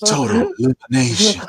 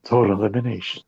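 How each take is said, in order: First: Higher-pitched mock DJ announcer. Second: Low, soft DJ announcer. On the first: Friend mimicking James's DJ voice on a move name, playful DJ voice. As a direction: put on an exaggerated DJ voice. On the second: Pretend. Co-host playing along with the teasing, low DJ voice. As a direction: drop it low like a radio DJ. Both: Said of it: "like your D J voice".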